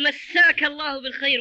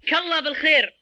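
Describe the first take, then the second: First: The first word masak is said in full. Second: The first word is clipped to a single k sound. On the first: May God grant you a good evening. The speaker calls it right. "واضحة" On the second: Something is like God. The speaker calls it wrong. "وهذا خطأ"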